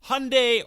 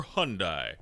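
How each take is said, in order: First: "Hyundai" raised high, ending like "day"; pronounced HUN-day. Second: "Hyundai" ending like "die"; pronounced HUN-die. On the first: Host presses guest for an answer, "Hyundai" as HUN-day. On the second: Host presses guest for an answer, "Hyundai" as HUN-die. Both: Shown as a demonstration. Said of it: "How do they pronounce it".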